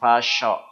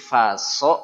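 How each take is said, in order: First: The middle consonant is a sh sound. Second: The middle consonant is a plain s sound. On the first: The speaker calls it wrong. "bukan fasyo" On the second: The speaker calls it right. "Jadi faso"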